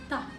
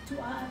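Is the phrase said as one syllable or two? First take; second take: one; two. First: It is said as one contracted syllable. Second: It is said as two separate syllables. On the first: "atau bisa ta" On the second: "kita bisa baca to a"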